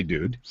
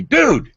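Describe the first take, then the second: First: Said in the usual way. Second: A high, loud drawn-out dude; mock exclaiming dude. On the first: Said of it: "and he did say". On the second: Retelling the producer's reaction, an amazed dude. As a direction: call out dude like an amazed friend. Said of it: "he said to me".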